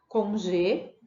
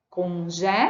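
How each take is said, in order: First: The stressed E vowel is closed. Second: The stressed E vowel is open. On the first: This is how it is said in Brazil. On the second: This is how it is said in Portugal. "em Portugal, aberto"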